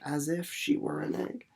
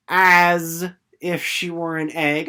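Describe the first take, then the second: First: Said in the usual way. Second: Slow, loud "As if she were an egg"; "As if she were an egg" spoken slowly, loud, "As" leaned on; teaching emphasis. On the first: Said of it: "starting to catch on". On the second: Shown as a demonstration. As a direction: stress "As" to point out the simile. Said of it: "what part of speech that was".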